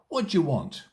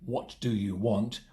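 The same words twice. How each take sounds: First: The words are reduced and run together. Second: Each word is said fully and separately. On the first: The speaker calls it right. "In natural spoken English, ... We say" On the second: The speaker calls it wrong. "we don't say"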